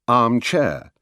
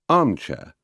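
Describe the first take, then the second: First: It uses the usual British stress pattern. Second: It uses the American stress pattern. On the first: This is the usual British way. "the more usual accents in British English" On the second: This is the American way. "how they are said in America"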